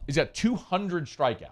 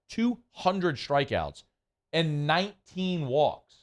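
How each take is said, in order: First: It is said at a normal pace. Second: It is said slowly and deliberately.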